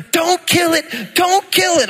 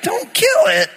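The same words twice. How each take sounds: First: 1 high pleading wife. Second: 1 mock high echo. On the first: Retold or imitated. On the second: Husband echoing wife in disbelief.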